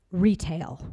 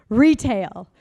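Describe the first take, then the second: First: Said in the usual way. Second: Loud. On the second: Shown as a demonstration.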